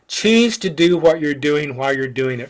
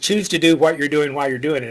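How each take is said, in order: First: The sentence is said slowly and deliberately. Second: The sentence is said at a normal conversational pace.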